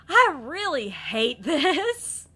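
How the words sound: It is said in a laughing, teasing tone. The speaker is playfully teasing a friend. "Even though you're laughing"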